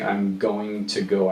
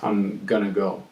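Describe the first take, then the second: First: Going to is said fully, every syllable clear. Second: Going to is reduced and run together. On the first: "I don't necessarily say" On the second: "very common amongst native speakers to pronounce this as"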